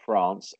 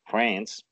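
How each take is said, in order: First: It is said in a non-American accent. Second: It is said in an American accent.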